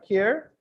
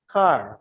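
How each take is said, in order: First: The name is said with a 'care' vowel. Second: The name is said with a 'car' vowel. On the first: The speaker calls it wrong. "Did I pronounce it right?" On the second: The speaker calls it right. "I think it's pronounced as car"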